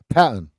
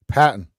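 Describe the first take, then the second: First: Boston accent, "Patton" with no R. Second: Boston accent, "Patton" with no R, once more. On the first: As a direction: say "Patton" with the R dropped. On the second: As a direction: drop the R in "Patton", Boston style. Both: Shown as a demonstration. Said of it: "'Cause there's no R".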